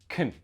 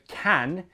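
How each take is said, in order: First: The vowel is reduced to a weak schwa. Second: The vowel is a full, clear 'a' sound. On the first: The speaker calls it right. "the vowel sounds in some of those words get squashed to a schwa sound" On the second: The speaker calls it wrong. "Instead of can"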